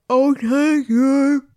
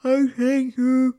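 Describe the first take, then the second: First: Slow, high, loud drawn out thanks; high breathless gratitude; relieved thanks. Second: Slow, higher drawn out thanks; lilting grateful voice; relieved thanks. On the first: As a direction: gush with relief. Relieved woman thanks Simon. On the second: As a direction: thank him again, gushing. Repeated thanks. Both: Acted.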